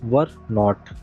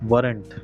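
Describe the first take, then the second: First: The two words are said separately and fully. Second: The two words are joined into one contracted word.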